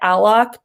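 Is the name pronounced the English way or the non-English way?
English. The name is said with an English pronunciation. This is how the person says their own name. "I think they pronounce it Alok"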